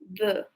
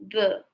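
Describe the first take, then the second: The two takes are said the same way.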